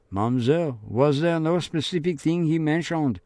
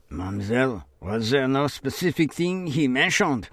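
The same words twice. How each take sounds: First: Higher, probing official voice; lightly voiced inquisitive officer; questioning policeman. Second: Remembered probing question; lightly voiced official asking; questioning officer. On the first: Policeman questions Marie-Laure.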